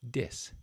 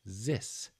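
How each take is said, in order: First: The word begins with a d sound. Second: The word begins with a z sound. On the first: "that D sound is formed by placing the tip of your tongue at the roof of your mouth" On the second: "the other common one I hear is a Z sound"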